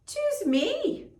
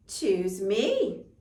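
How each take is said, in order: First: Squeaky high begging cat; pleading cat voice. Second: Said in the usual way. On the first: Acted. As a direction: plead like an eager little cat. Gray cat begs old man.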